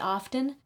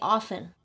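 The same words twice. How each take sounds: First: The T in the middle is pronounced. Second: The T in the middle is silent. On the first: This is how many other people say it. "I've heard many people say often" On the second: This is how the speaker says it. "but I say often"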